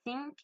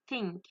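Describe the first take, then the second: First: "think" without the tongue between the teeth, pitched higher; mispronounced TH. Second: "think" with tongue between the teeth for TH; correct TH. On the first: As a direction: say "think" wrongly, without a true English TH. (prononcer « think » mal, sans la langue entre les dents) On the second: (prononcer « think » avec la langue entre les dents) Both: Shown as a demonstration. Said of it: "on entend bien la différence entre".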